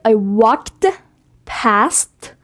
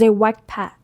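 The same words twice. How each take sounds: First: The T and D sounds are clearly pronounced. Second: The T and D sounds are barely heard. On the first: The speaker calls it wrong. "So I don't say I walked past" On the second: The speaker calls it right. "The T and D are, you know, very softly pronounced"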